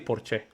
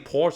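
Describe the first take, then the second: First: It is pronounced the way Spanish speakers do. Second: It is pronounced in a non-Spanish way. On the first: "They say Porsche. That's how they say it" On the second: "they don't say Porsche in Spain"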